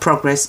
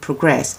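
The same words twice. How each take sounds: First: The stress is on the first syllable. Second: The stress is on the second syllable. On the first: It is used as a noun. "if it's a noun, you stress in the first syllable" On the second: It is used as a verb. "if it's a verb, you stress in the second"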